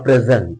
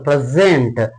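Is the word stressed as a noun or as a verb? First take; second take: noun; verb. First: It is stressed with the noun stress pattern. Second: It is stressed with the verb stress pattern. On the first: It names a gift. "So here it is getting noun" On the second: It names the act of presenting. "This is called verb"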